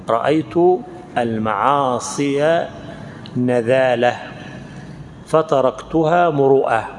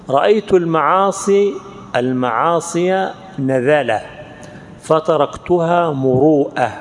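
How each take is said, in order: Both takes have the same delivery.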